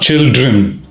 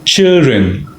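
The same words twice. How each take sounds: First: The d sound is clearly pronounced. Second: The d sound is silent. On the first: The speaker calls it wrong. "It's not children" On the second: The speaker calls it right. "D is dropped, silent"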